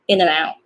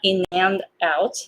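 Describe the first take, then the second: First: The word 'and' is reduced to a quick 'n'. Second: The word 'and' is pronounced fully and separately. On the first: The speaker calls it right. "I just say in and out, like in" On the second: The speaker calls it wrong. "Not in and out"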